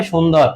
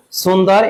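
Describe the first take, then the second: First: "সুন্দর" as shundor, starting with sh; correct sh sound. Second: "সুন্দর" as sundar, starting on a plain s; wrong s sound. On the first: Teacher confirms the answer for students, sh and dor in "সুন্দর". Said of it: "কি হবে?". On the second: Teacher warns students off this form, wrong s in "সুন্দর". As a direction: say "সুন্দর" with s and an a in dar. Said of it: "এইভাবে উচ্চারণ হবে না". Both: Shown as a demonstration.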